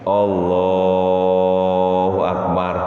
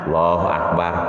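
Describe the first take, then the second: First: The phrase is drawn out with a long tune. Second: The phrase is said short and clipped. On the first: It signals that a prostration is coming. The speaker calls it right. "kodenya itu dengan nadanya dipanjangin" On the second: It gives no warning of the prostration. The speaker calls it wrong. "jangan cekak banget"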